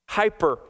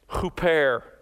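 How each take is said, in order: First: The word is pronounced the English way. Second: The word is pronounced the Greek way. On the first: "We use this word in English, but we pronounce it hyper" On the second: "Beyond here is the Greek word hyper"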